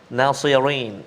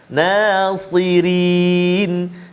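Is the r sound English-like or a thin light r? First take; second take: English-like; thin. First: The r sounds like an English r. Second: The r is a thin, light tap. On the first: The speaker calls it wrong. "Jangan kita bunyi macam uh, apa? Speaker London" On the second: The speaker calls it right. "ra baris bawah ataupun kasrah nipis tarqiq"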